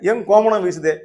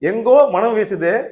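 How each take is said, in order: First: The first break comes after 'eng'. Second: The first break comes after 'engo'.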